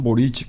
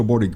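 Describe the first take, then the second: First: Boric ending in a "ch" sound; local pronunciation. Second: Boric ending in a hard "k"; speaker's own pronunciation. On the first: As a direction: say Boric as "BO-rich", as they do there. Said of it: "allá pronuncian Boric". (Boric pronunciado con "ch" final, como "Bórich") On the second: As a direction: say Boric as "BO-rik", with no "ch". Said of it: "yo pronuncio Boric". (Boric pronunciado con "k" final, como "Bórik") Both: Shown as a demonstration.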